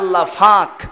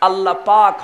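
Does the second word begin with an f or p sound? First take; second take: f; p. First: The second word begins with an f sound. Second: The second word begins with a p sound. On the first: The speaker calls it wrong. "কয় আল্লাহ ফাক। দারুণ বেকায়দা।" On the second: The speaker calls it right. "আল্লাহ পাক হয় না"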